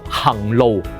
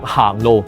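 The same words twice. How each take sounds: First: 行 is said with its literary reading. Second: 行 is said with its colloquial reading. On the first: This is the form used in classical poetry. The speaker calls it right. "佢讀行路" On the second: This is the everyday spoken form. The speaker calls it wrong. "佢又唔係讀行路"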